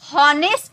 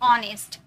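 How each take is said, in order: First: The word begins with an h sound. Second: The word begins with a vowel sound. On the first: The speaker calls it wrong. "हॉनेस्ट बोले क्या, नहीं, एच silent है" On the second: The speaker calls it right. "ओ से हम start किए"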